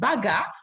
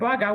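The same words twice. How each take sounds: First: It is said in a Ugandan accent. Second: It is said in the local accent.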